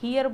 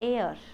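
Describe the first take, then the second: First: It starts with an h and sounds like 'hear'. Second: It has a silent h and sounds like 'air'. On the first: The speaker calls it wrong. "हियर बोल रहा होगा" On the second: The speaker calls it right. "इसका ऐसा sound निकालो जो तुम हवा को इंग्लिश में बोलते हो"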